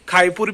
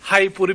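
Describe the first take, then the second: First: It begins with a rough kh sound. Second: It begins with a breathy h sound. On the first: "तीन साउंड सुने हैं" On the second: "तीन साउंड सुने हैं"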